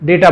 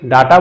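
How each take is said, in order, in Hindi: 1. यह शब्द अंग्रेज़ी उच्चारण में बोला गया है। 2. यह शब्द हिंदी उच्चारण में बोला गया है। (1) "इंग्लिश में प्रोनाउंस करते टाइम हम डेटा बोल देते" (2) "हिंदी में डाटा बोल देते हैं"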